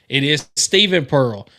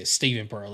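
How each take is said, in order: First: It is said at a louder volume. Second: It is said at normal speaking volume.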